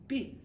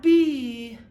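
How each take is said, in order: First: B cut short, with a brief "ih" vowel. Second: B drawn out loud with a long "ee"; wrong B, held long as "bee". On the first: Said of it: "It's a short E". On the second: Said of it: "It's not E". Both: Shown as a demonstration.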